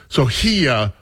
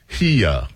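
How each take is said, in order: First: Said in the usual way. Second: "here" stretched into two syllables, hee-yuh. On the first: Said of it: "here becomes here". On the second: Retold or imitated. Host showing how the song says "here". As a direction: drawl "here" as two beats like the SWV song. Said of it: "it's a two syllable word".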